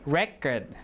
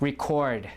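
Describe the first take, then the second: First: The stress is on the first syllable. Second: The stress is on the second syllable. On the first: It is used as a noun. "the noun record" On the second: It is used as a verb. "this one is a verb. ... So stress is on the second syllable"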